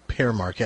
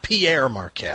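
First: The first word sounds like 'pair', one syllable. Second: The first word sounds like 'pee-air', two syllables. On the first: The speaker calls it right. "thanks for pronouncing it correctly" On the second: The speaker calls it wrong. "Not Pierre Marquette"

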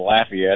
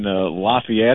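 First: The name is said the way locals say it. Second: The name is said in a general, non-local way.

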